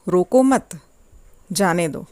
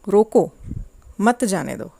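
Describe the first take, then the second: First: The pause comes after the second word. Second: The pause comes after the first word.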